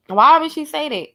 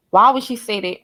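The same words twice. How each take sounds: First: Incredulous repeat. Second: Said in the usual way. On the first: Real, not acted. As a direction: ask it again in disbelief. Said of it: "repeats the question, incredulous". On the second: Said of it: "repeats the question".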